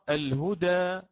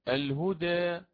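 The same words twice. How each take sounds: First: The final vowel is a fully open a. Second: The final vowel is raised partway toward e. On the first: "والفتح مقدم في الأداء" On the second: "أو بالتقليل"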